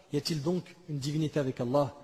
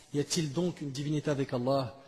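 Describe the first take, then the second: Both takes have the same delivery.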